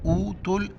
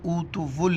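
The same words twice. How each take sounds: First: ऊतुल with long oo, then तुल as one syllable; joined ta-lam. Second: ऊतुवुल said with an added वु before the final l; unchanted ऊतुवुल, sounding the silent waw; wrong extra syllable. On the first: Teacher showing the correct joining, ऊतुल in two syllables. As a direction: chant ऊतुल, running t straight into l. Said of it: "ता को direct लाम के साथ मिलाएंगे". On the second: Teacher warning students of a mistake, extra syllable in ऊतुवुल. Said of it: "इसको ऊतुवुल नहीं पढ़ना है". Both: Shown as a demonstration.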